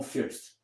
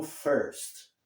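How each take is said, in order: First: "first" with an eh or ih vowel, "feerst"; mispronounced "first", vowel too far forward; wrong first. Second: "first" with an English er vowel; correct first. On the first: Retold or imitated. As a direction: show the error in "first", no er vowel. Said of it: "não como first". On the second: Shown as a demonstration. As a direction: say "first" as "furst". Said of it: "se pronuncia como first".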